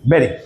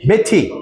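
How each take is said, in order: First: The t is flapped, American style. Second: The t is crisp, British style.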